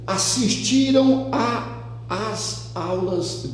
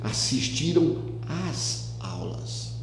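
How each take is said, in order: First: Two separate 'a' vowels are said before 'aulas'. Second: A single merged 'a' vowel is said before 'aulas'. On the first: The speaker calls it wrong. "para que eu não diga exatamente assistiram a as aulas" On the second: The speaker calls it right. "vou fundir os dois em um só"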